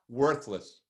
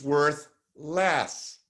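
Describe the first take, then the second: First: It is said fast as one word. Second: It is said slowly as two words.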